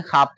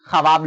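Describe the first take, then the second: First: ख्वाब as "khaab", one syllable; read form. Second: ख्वाब as "kha-waab", two syllables; written form. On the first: Teacher recaps how it is read, w left silent. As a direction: leave the व out of ख्वाब. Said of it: "ख्वाब पढ़ते हैं". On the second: Teacher recaps how it is written, w sounded. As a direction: voice the silent व in ख्वाब. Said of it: "ख्वाब लिखते हैं". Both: Shown as a demonstration.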